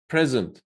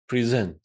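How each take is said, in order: First: The stress is on the first syllable. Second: The stress is on the second syllable. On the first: It is a noun meaning a gift. "The stress is on the first syllable" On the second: It is a verb meaning to show something. "it's on the second syllable"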